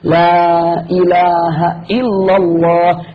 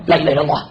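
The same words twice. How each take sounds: First: It is said slowly and clearly. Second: It is said fast and hurried.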